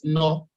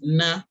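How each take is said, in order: First: The syllable ends in a rounded 'oh' vowel. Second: The syllable ends in an open 'ah' vowel. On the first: The speaker calls it wrong. "You cannot pronounce it no" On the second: The speaker calls it right. "the correct one is the one that you you've already mentioned. It is na"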